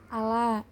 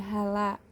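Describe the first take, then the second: First: The word begins with a glottal stop. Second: The word begins with an h sound. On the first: "contoh pada hamzah dan ha" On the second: "nah itu diganti menjadi hala"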